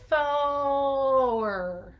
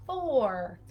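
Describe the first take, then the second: First: "Thor" with a long held O before the R; stretched O first. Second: Said in the usual way. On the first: Shown as a demonstration. Therapist modelling "Thor" for a child, O stretched first. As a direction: draw out the O in "Thor" and add the R late. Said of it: "Start with the O, Thor". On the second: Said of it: "Yeah, Thor".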